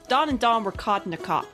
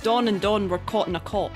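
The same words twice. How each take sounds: First: It is spoken in a Boston accent. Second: It is spoken in a Scottish accent. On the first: "I think for Boston it would be Don and Don" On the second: "we need to hear the Scottish first"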